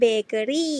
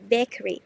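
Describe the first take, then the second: First: It is said with a Thai-style pronunciation. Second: It is said with an English pronunciation. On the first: The speaker calls it wrong. "หรือที่คนไทยมักจะชอบพูดว่า" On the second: The speaker calls it right. "แต่จริงๆแล้วอ่านว่า"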